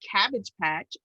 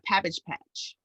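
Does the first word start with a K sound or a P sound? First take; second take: K sound; P sound. First: The first word starts with a K sound. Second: The first word starts with a P sound. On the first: The speaker calls it right. "I knew it was Cabbage Patch" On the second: The speaker calls it wrong. "Forever I called it a Pabbage Patch"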